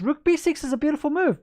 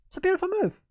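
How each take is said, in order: First: Said in the usual way. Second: Much higher, playful repeat of it's a beautiful move; high sing-song praise of the move; mock admiring. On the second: Shown as a demonstration. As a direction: squeal beautiful like a delighted fan.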